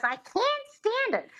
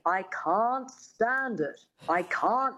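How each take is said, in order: First: Very high, mangled diva voice; exaggerated high character voice; Lena Lamont. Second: Slow dialect coach modelling mid-Atlantic vowels; measured mid-Atlantic elocution; mid-Atlantic accent. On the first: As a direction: pitch it way up, failing the elocution lesson. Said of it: "And she goes". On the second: Retold or imitated. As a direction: demonstrate careful mid-Atlantic speech, slowly. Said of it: "her dialect coach says".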